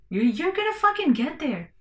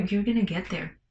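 First: Emphatic encouraging burst. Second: Said in the usual way. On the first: Real, not acted. Host urging struggling artists, fired-up and much higher. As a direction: pitch jumps much higher on the repeat.

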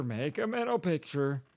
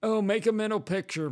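First: Softer, put-on leering voice; mock creep repeating it under his breath; hushed creepy murmur. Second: High, put-on leering voice; mock creep murmuring to himself at a strip club; creepy onlooker. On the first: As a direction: mutter it to yourself like a creep. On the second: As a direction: play a creepy guy ogling the stage. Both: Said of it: "I wouldn't be sitting there going".

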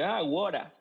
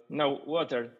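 First: "water" with a flapped t and dropped r, wora; American water. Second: "water" said the Spanish way, clear t and tapped r, woter; Spanish-accented water. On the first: New York cart vendor finally understanding, in an imitated American "wora". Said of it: "Y dice". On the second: Ordering water from a street cart in New York, in Spanish-style pronunciation. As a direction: say "water" with a full t, like a Spanish speaker would. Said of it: "y te digo". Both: Retold or imitated.

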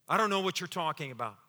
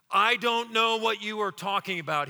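First: Quick, played-down brush-off; understated denial. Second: Public denial. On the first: Bold Peter denying Jesus, understated brush-off. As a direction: brush the question aside, less forcefully. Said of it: "Remember, this is bold, brash Peter". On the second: Acted. Peter to servant girl, firm loud denial. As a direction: deny it for all to hear. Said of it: "Peter denied it in front of everyone".

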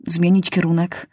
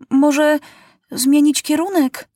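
First: Said in the usual way. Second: Put-on higher, eager boy's voice offering advice; a young king suggests a new course; boy's suggestion. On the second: A narrator's reading. Young Maciuś suggests to the pilot changing course, in a higher eager voice. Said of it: "radzi Maciuś".

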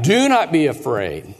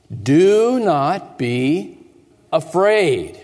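First: Said in the usual way. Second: Very slow, measured angel's command; lightly voiced angel calming the shepherds; solemn angel. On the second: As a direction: lay each word down slowly like an angel. Angel speaks to terrified shepherds.

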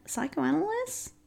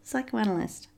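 First: Psychoanalyst? tried with a rising, questioning tune; unsure pronunciation. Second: Psychoanalyst. said with a firm falling tune; Psychoanalyst. settled on, falling at the end; confident pronunciation. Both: Shown as a demonstration. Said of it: "I would absolutely love nothing more than a psycho".

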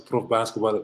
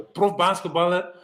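First: Said in the usual way. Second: "profbasketballer" repeated higher, rising at the end; emphatic, raised "profbasketballer"; stress on profbasketballer. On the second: Real, not acted. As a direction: lift "profbasketballer" to underline the qualification. Repeats word to stress the distinction.

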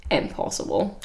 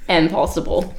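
First: Breathy whispered disbelief. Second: Said in the usual way. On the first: Real, not acted. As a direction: hush it, barely voiced, incredulous. Disbelieving aside to co-host.

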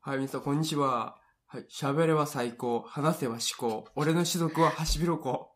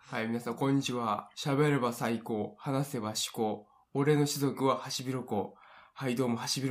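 First: Slow rhythmic self-introduction; catchphrase intro. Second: Catchphrase intro. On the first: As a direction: deliver it like a signature greeting. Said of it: "ちゃんと挨拶考えてきたのに". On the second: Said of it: "自己紹介ですね". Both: Acted.

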